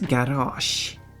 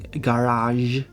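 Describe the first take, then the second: First: It is said with a Swedish pronunciation. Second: It is said with a French pronunciation. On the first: "but in Swedish it's garage" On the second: "in French you got the je sound like in garage"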